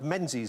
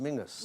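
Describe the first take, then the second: First: The name is said with its written z sound. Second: The name is said like Mingus, with no z. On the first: This is how the spelling suggests it sounds. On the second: This is how it is said in Scotland.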